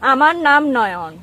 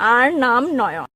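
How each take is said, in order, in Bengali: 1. এটি প্রমিত বাংলায় বলা হচ্ছে। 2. এটি চট্টগ্রামের উপভাষায় বলা হচ্ছে। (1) "শুদ্ধ ভাষা" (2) "চিটাগাঙ্গের ভাষায়"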